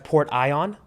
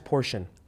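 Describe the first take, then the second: First: It is said as two parts, port and ion. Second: It is said as the ordinary word portion.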